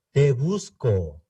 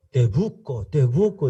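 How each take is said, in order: First: "Te busco" said slowly with a clear s, /te busko/; full s. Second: "Te busco" said as "te buco", no s; dropped s. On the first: Shown as a demonstration. A learner showing the correct "Te busco" with its s. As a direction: sound the s in "busco" carefully. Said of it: "en el lugar de decir te busco". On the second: Retold or imitated. A visitor showing how Argentines say "Te busco" without the s. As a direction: drop the s in "busco".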